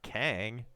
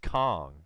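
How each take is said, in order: First: The vowel sounds like the one in 'bang'. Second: The vowel sounds like the one in 'song'. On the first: The speaker calls it wrong. "apparently I'm mispronouncing it. It's not Kang" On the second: The speaker calls it right. "It is pronounced Kong"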